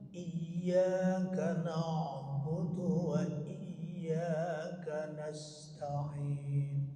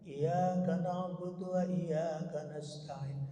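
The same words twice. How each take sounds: First: The phrase is recited carefully and precisely. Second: The phrase is recited carelessly and loosely. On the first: The speaker calls it right. "harus sangat tadi" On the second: The speaker calls it wrong. "kita bacanya sembarangan aja"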